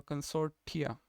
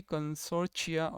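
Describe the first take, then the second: First: "consortia" with a clear T before the ending; T-sound pronunciation. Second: "consortia" with a CH sound before the ending; SH-like pronunciation. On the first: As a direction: say "consortia" as con-SOR-tee-a. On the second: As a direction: say "consortia" as con-SOR-chia. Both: Shown as a demonstration. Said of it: "there is two way how British pronounce".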